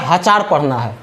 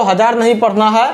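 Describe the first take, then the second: First: "हजार" said as ha-chaar; memory-trick pronunciation. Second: Said in the usual way. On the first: Shown as a demonstration. Teacher correcting how to read thousand, "हजार" pronounced ha-chaar. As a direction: put a ch in place of the j in "हजार". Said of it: "क्या पढ़ना है?".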